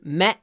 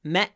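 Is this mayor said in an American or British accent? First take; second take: British; British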